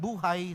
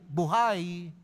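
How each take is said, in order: First: The stress is on the first syllable. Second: The stress is on the last syllable. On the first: It means life. "Pag sinabi nating buhay sa Ingles, life" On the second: It means alive. "Pag sinabi nating buhay, ano ba yon? Alive"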